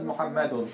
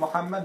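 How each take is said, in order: First: The word ends with an added nasal 'un' ending. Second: The word ends without any added nasal ending. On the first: "you say Muhammad Muhammadun" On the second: "you say Muhammad Muhammadun"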